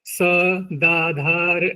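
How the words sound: A clear break separates 'sa' from 'dadhara'. The speaker calls it right. "स्पष्टता के लिए स दाधार ऐसे करके बोलते थे"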